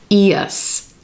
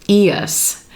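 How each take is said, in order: First: It is said as two syllables, ee-us. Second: It is said as two syllables, ee-us.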